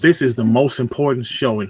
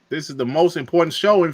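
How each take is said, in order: First: It is said quietly in a lowered voice. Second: It is said loudly with lively energy. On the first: The speaker calls it right. "I'm like lower my voice" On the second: The speaker calls it wrong. "Maybe I was a little bit too animated earlier"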